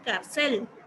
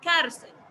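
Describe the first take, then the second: First: The stress is on the last syllable. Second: The stress is on the first syllable. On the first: The speaker calls it wrong. "Yo no le puedo colocar la tilde aquí en la E, porque si no ... va a decir cárcel" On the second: The speaker calls it right. "La sílaba más fuerte es car ... Lo que quiero es que se escuche bien"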